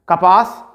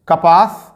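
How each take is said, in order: The two takes are said the same way.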